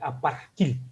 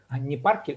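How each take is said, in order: First: The word is said crisply, with clear sounds. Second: The word is said loosely, without clear sounds. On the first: The speaker calls it right. "Тут четко надо паркиль" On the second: The speaker calls it wrong.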